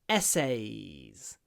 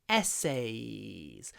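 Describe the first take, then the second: No difference in how they are said.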